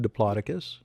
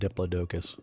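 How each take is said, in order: First: The name is pronounced in its standard form. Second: The name is pronounced in a childlike, garbled form.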